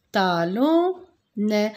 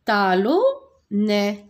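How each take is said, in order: First: Talonnet again very slow and clear; slow model word. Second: Talonnet very slow, each syllable apart; slow model word. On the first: Teacher repeating talonnet slowly for the pupils. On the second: Teacher telling pupils to watch, then saying talonnet slowly. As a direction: stretch out talonnet so the class hears it. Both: Shown as a demonstration. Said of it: "Regardez bien".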